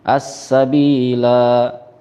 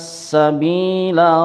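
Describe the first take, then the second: First: The final vowel is drawn out long. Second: The final vowel is kept short. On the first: The reading stops at this word. "Dibaca pan panjang" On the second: The reading joins straight into the next verse. "maka la-nya dibaca pendek"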